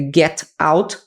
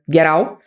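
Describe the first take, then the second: First: The two words are said separately. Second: The T links straight into the next word. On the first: "é get out" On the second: "vira get out"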